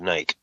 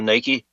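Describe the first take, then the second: First: It is said the way Australians say it. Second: It is said the usual American way. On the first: "I think Australia calls it Nike" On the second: "instead of Nike"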